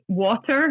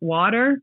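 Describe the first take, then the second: First: The t in the middle is crisply pronounced. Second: The t in the middle is softened. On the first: This is how the children say it. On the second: This is how the children do not say it.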